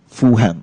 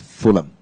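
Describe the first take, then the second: First: The middle h sound is pronounced. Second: The middle h sound is silent. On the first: This is the local transliterated form of the name. The speaker calls it wrong. "in the Cantonese transliteration, eh, we say it as um, Fulham" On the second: This is the name as said in England. The speaker calls it right. "instead of Fulham"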